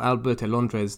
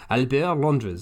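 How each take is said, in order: First: The name is said with a Spanish accent. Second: The name is said with a French accent. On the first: The speaker calls it wrong. "I don't know why I suddenly decided to do that in a Spanish accent" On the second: The speaker calls it right. "that's more like it. That's more French"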